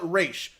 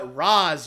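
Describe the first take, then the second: First: The name ends with a 'sh' sound. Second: The name ends with a 'z' sound. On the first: The speaker calls it right. "Just call it Raish" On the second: The speaker calls it wrong. "Don't call it Raz, you stupid show"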